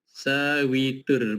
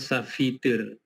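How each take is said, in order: First: The middle consonant sounds like w. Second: The middle consonant sounds like f. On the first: The speaker calls it right. "V itu yang bunyinya W" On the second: The speaker calls it wrong. "Bukan bacaannya safitur"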